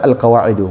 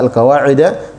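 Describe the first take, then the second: First: The word ends with a 'u' vowel. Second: The word ends with an 'a' vowel. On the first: "dan bisa dibaca Al-Qawaidu" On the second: "bisa dibaca Al-Qawaida"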